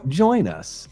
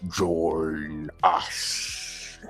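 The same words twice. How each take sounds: First: It is said in the speaker's ordinary voice. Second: It is said in a put-on horror-movie voice.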